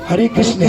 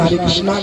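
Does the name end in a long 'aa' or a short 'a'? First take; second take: short a; long aa. First: The name ends with a light, short 'a'. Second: The name ends with a long 'aa' sound. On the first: It names Krishna. The speaker calls it right. "अ की आवाज हल्की सुनाई देती है" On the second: It names Draupadi instead. The speaker calls it wrong. "हरे कृष्णा नहीं"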